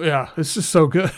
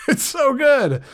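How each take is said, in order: First: Said in the usual way. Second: High laugh through the words; laughing with delight. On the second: Real, not acted. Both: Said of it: "Got a little excited there".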